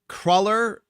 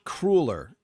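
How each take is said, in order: First: The first vowel is short, as in 'cull'. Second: The first vowel is long, as in 'cruel'. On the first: This is how New Yorkers say it. The speaker calls it right. "that's how we pronounce it. I believe that is the correct way" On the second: This is how Midwesterners say it. The speaker calls it wrong. "The other way is called the wrong way. Those are the people from the Midwest"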